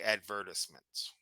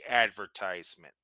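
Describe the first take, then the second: First: It is said with a British pronunciation. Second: It is said with an American pronunciation. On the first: "In England, you'll probably hear people say" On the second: "In the United States, people say"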